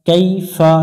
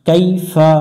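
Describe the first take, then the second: The two takes are said the same way.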